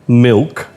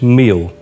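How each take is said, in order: First: It is said with a standard English pronunciation. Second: It is said with a Thai-accented pronunciation. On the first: "ask them to take something like um" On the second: "and it's"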